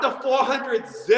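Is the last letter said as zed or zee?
zed. The last letter is said as zed. This is how British and Aussie people say it. The speaker calls it wrong. "not the four hundred Z"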